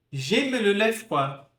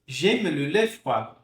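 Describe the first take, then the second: First: "J'aime le lait froid" slowly with a rounded "le"; model French. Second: "J'aime le lait froid" slowly with a rounded "le"; model French, calmer. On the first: Teacher modelling the sentence for practice. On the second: Teacher repeating the model sentence. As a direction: repeat it calmly and clearly. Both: Shown as a demonstration. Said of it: "Pronunciar o E sozinho é assim".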